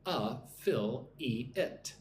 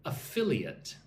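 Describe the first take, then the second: First: "A-fil-e-it" in four slow, separated syllables. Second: "Affiliate" as one word, stressed on "fil"; stress on second syllable. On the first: English teacher breaks down "A-fil-e-it" for learners, syllable by syllable. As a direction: draw out "A-fil-e-it", a gap after each syllable. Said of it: "Four syllables". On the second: English teacher models "Affiliate" for learners, second syllable stressed. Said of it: "the emphasis on the second syllable". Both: Shown as a demonstration.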